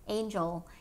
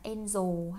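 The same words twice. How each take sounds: First: The j sound in the middle is strong. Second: The j sound in the middle is weak. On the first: The speaker calls it right. "nhớ âm j mạnh lên, dày dặn lên" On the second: The speaker calls it wrong. "đừng đọc là angel hay là something else"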